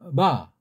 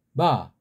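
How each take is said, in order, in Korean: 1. 입술이 잠깐 가볍게 닿아서 부드러운 b처럼 들려요. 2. 입술이 잠깐 가볍게 닿아서 부드러운 b처럼 들려요.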